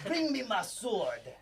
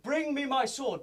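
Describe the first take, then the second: First: It is said in a put-on French accent. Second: It is said in the speaker's plain accent.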